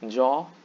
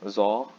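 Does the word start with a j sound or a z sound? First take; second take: j; z. First: The word starts with a j sound. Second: The word starts with a z sound. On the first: This is the standard Bengali pronunciation. The speaker calls it right. "In standard Bengali, both are jaw" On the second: This is how some people in Eastern Bengal say it. The speaker calls it wrong. "don't pronounce it as zaw"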